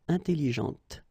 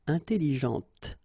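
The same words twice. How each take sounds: Both takes have the same delivery.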